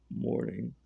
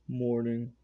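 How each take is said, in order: First: It is said in a much deeper voice. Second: It is said in a higher voice.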